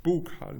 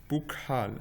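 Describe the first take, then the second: First: "Bukhal" with a more open first vowel, like BOH-kal; corrected pronunciation. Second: "bukhal" with a short oo in the first syllable; first-try pronunciation. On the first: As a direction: say "Bukhal" higher, opening the first vowel towards o. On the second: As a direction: say "bukhal" as BOO-kal, falling at the end. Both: Shown as a demonstration. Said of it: "plutôt".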